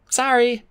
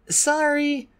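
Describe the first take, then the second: First: High apologetic dragonet; Clay apologizing. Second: Put-on high, young dragon voice, apologetic; a higher voice for the young dragon; Clay apologizing. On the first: Clay apologizing to Fjord, sheepish. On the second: Clay to the Ice Wing, apologetic. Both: A narrator's reading. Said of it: "Clay said".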